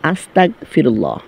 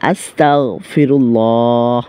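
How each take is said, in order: First: The middle consonant is a hard k sound. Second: The middle consonant is a throaty gh sound. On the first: It means asking to become a disbeliever. The speaker calls it wrong. "ভুল করে মনের অজান্তে যেই ভুলটি করে থাকে সেটি হচ্ছে" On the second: It means asking for forgiveness. The speaker calls it right. "সঠিক উচ্চারণটি"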